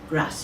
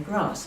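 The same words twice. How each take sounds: First: The word is said in a Geordie accent. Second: The word is said in a London-area accent. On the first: This is how people from the north-east say it. "he said" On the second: This is how people from near London say it. "I say grass because I come from near London"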